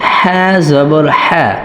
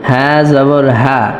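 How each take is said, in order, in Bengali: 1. "h" হলো একটি টানটান, খসখসে কণ্ঠনালী-ধ্বনি। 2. "h" হলো একটি হালকা, শ্বাসযুক্ত ধ্বনি। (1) "এটা কণ্ঠনালীর মধ্যখান থেকে উচ্চারিত হবে" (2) "এখানে এইভাবে অনেকে বলে"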